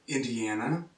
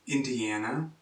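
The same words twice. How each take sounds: The two takes are said the same way.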